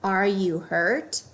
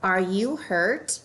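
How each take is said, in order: First: "are" stressed, slow rising question; ARE you hurt, checking if it's true; weight on "are", rise at the end. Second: "you" stressed, slow rising question; are YOU hurt, concerned; weight on "you", rise at the end. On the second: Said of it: "Last one". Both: Shown as a demonstration.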